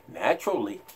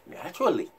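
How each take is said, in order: First: Naturally dropped low and soft; quiet and low. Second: Naturally through a chuckle, soft and falling; laughing. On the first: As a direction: let naturally sink away. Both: Shown as a demonstration.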